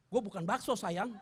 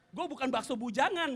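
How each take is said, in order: First: Said in the usual way. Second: "Gua bukan bakso bujangan" said through laughter, stress on "bujangan"; laughing retake. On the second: Shown as a demonstration. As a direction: repeat the joke while cracking up.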